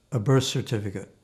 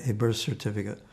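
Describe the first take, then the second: No difference in how they are said.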